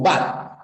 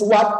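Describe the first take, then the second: First: The word begins with a B sound. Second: The word begins with a W sound. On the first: This is how it is said in some places, following German. "En algunos lugares esto lo pronuncian así, como bat" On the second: This is how the speaker's own community says it. "Pero nosotros pronunciamos what"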